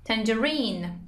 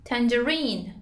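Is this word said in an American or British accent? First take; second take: British; British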